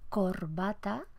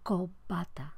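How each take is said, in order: First: An r sound is heard before the b. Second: No r; the b is lengthened instead.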